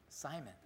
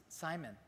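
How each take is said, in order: No difference in how they are said.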